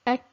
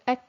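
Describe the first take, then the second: First: The k is cut short with breath escaping. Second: The k is cut short with breath escaping.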